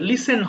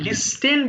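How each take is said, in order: First: No t sound is pronounced in the middle. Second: A t sound is pronounced in the middle. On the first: The speaker calls it right. "লিসেন হবে" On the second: The speaker calls it wrong. "অনেক আমরা বেশিরভাগ লিস্টেন বলে ফেলতে পারি"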